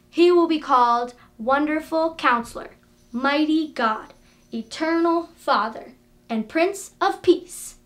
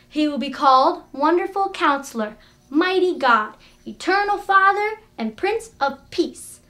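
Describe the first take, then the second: First: It is said at a slower pace. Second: It is said at a faster pace.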